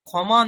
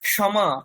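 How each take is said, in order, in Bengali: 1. যুক্তবর্ণটি সাধারণ kh ধ্বনির মতো উচ্চারিত হয়। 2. যুক্তবর্ণটি k এবং তারপর sh হিসেবে উচ্চারিত হয়।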